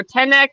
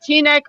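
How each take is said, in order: First: First vowel of Tenek as short "eh"; alternative pronunciation. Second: First vowel of Tenek as long "ee"; alternative pronunciation. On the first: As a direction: say Tenek as TEN-eck. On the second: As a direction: say Tenek as TEE-neck. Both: Shown as a demonstration. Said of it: "I don't know if it's pronounced".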